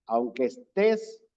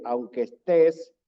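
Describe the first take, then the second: First: Said in the usual way. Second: "aunque estés" said again, louder and pressed; louder emphatic repeat. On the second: Shown as a demonstration. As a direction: lean hard into "estés" to grab attention. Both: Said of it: "oye bien".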